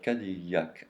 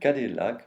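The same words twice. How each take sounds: First: The name is pronounced the original French way. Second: The name is pronounced the usual American way. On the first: "but Cadillac, and that's on purpose, because ... is a French name" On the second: "I'm not saying Cadillac"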